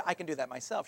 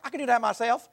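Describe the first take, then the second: First: Said in the usual way. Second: Higher, louder imitation of a little girl's thick Southern accent; imitating a thick Southern accent, a touch higher and louder. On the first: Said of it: "But rather than said". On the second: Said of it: "this super thick Southern accent".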